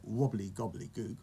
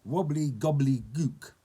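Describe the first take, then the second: First: Said in the usual way. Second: Slow, loud incantation; hammed-up goblin spell; magic word. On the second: A narrator's reading. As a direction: draw out the magic word with relish. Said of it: "he said a magic word".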